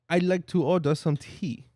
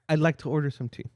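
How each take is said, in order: First: It is said in a put-on French accent. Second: It is said in the speaker's normal accent. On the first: "That's not a French accent" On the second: "Just don't do the accent"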